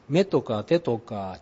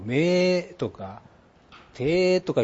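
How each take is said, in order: First: The vowels of the short words are kept short. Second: The vowels of the short words are stretched long. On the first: This is the standard way of saying them. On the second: This is the Kansai way of saying them.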